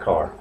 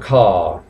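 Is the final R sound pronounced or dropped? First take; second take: pronounced; dropped. First: The word ends with an R sound. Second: The word ends without an R sound. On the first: This is the American way. "pero el americano sí lo dice car" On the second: This is the British way. "el británico, acordaos que no suele pronunciar la R al final de palabra, por lo tanto sonaría car"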